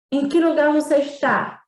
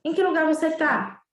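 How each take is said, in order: First: "está" said in full, a bit louder; careful textbook "você está"; formal full form. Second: "tá" clipped short, easy everyday tone; relaxed spoken "tá" instead of "está"; informal reduced form. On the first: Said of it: "A gente não diz". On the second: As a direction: say "você tá" casually. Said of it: "a gente geralmente diz assim". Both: Shown as a demonstration.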